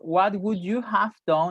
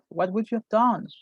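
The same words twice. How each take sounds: First: The word 'have' is said fully and clearly. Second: The word 'have' is reduced to a weak sound. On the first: "instead of"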